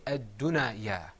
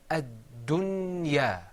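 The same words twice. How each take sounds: First: Ad-dunaya with an added vowel after the noon; wrong pronunciation demo. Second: Ad-dunya slowly, the noon closed with no vowel after it; correct slow demo. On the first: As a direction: show the mistake in ad-dunaya. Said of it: "'cause that would be wrong". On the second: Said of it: "I'm saying ad-dunya". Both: Shown as a demonstration.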